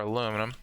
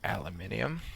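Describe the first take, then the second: First: The word ends in 'num', four syllables. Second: The word ends in 'nium', five syllables. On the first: This is how the speaker normally says it. "that makes our aluminum" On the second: This is not how the speaker normally says it. "No, I don't say it like that"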